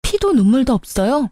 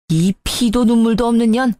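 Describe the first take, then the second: First: The insult handed back as a rising question; retort echoing insult. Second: Mildly outraged curse, evenly pressed out; indignant insult. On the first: Daughter-in-law returns mother-in-law's own insult, pointed retort. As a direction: throw the words back, lifting the end. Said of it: "그 말 그대로 돌려드릴게요". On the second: Mother-in-law curses daughter-in-law who pawned her things, indignant. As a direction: spit out the insult with restrained outrage. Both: A narrator's reading.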